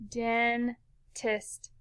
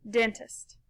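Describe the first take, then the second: First: "dentist" split slowly in two, den, pause, tist; syllable by syllable. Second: Said in the usual way. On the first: Shown as a demonstration. Teacher putting the syllables together for pupils, "dentist" in two slow pieces. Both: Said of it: "Put 'em together".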